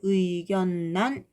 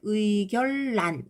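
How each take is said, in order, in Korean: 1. 가운데 자음은 n으로 들려요. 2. 가운데 자음은 l로 들려요. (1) "근데 의견란 이렇게 발음한다는 거지" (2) "유음화가 된다고 생각하면 의결란 이렇게"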